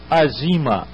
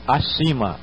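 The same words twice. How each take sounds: First: "azima" sounded out slowly, z sound on the middle syllable; sounding out words. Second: Said in the usual way. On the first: Shown as a demonstration. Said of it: "Por exemplo". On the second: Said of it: "Então você joga o outro som".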